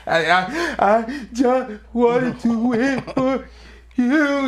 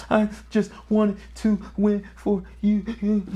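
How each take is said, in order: First: Higher, slow and broken, near sobbing; retold sobbing plea. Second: High, tight crying plea, mildly voiced; a son in tears pleading his case; retold crying plea. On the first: Son sobbing to his dad after losing a fight, slow and broken. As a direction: drag each word out through tears. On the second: Crying son tells his dad he wanted to win for him. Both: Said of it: "frantically crying".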